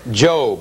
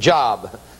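First: The vowel is long, rhyming with robe. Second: The vowel is short, rhyming with rob. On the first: This is the usual name of the book. The speaker calls it right. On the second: This is how a new believer said it. The speaker calls it wrong.

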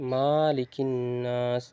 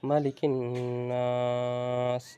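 First: The first vowel is drawn out long. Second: The first vowel is said short and quick. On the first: The speaker calls it wrong. "এইভাবে মিমকে টেনে পড়ে" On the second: The speaker calls it right. "তাড়াতাড়ি পড়তে হবে"

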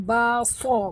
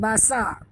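First: The first consonant is thick and heavy. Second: The first consonant is thin and light. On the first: The speaker calls it right. "Huruf suat tebal" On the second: The speaker calls it wrong.

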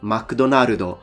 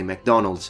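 First: It is said with a Japanese-sounding pronunciation. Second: It is said with an English-sounding pronunciation. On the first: "the Japanese saying McDonald's" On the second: "when they're trying to say McDonald's"

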